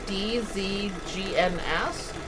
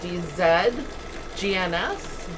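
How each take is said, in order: First: The letters are spelled in a non-Canadian way. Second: The letters are spelled in a Canadian way.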